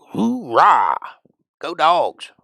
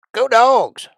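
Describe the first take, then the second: First: Loud, higher cheer. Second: Much higher, much louder yell; full-throated Go Dogs! cheer; big cheer. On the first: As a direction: whoop for the team. Cheering for Georgia. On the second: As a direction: belt it out like a stadium fan. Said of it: "You forgot that part". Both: Pretend.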